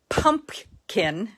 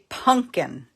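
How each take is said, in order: First: The P sound in the middle is pronounced. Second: The P sound in the middle is dropped. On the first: "like it's spelled, with a P" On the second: "with no P in it"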